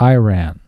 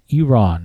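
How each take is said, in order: First: The first vowel sounds like the letter 'eye'. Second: The first vowel is a short 'i' sound. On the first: The speaker calls it wrong. "not Iran" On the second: The speaker calls it right. "I said Iran"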